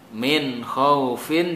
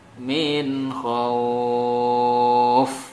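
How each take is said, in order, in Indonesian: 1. Frasa itu berakhir dengan suku kata fin. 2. Frasa itu berakhir dengan bunyi f saja.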